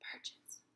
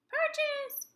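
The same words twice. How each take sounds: First: The word is whispered. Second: The word is said in a high squeaky voice. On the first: "Whisper it" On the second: "mouse voice it"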